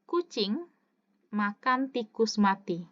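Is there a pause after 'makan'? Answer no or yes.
no. It is said without a pause after makan. The cat eats a dead mouse. "nih dengarkan baik-baik"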